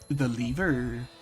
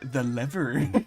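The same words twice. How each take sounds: First: It is said in a non-American accent. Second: It is said in an American accent.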